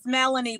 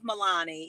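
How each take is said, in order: First: The name is said in a plain English way. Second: The name is said with an Italian-style accent. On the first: This is the name's usual form. "It's Melanie" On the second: This is a playful, glamorous version of the name. "when people put the Italian accent on it, I just love it"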